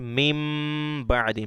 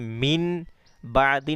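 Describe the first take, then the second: First: The first word ends with an m sound. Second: The first word ends with an n sound. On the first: The speaker calls it right. "बल्कि मीम बादी" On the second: The speaker calls it wrong. "नहीं"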